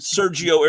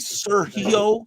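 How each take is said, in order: First: The G is a soft English J sound. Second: The G is a breathy H sound. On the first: The speaker calls it wrong. "I've always pronounced the name" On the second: The speaker calls it right. "it's supposed to be"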